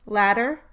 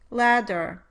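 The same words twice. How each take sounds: First: The middle consonant is a brief tongue tap. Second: The middle consonant is a full, held stop. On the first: "the alveolar flap is much briefer than the D" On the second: "the alveolar flap is much briefer than the D"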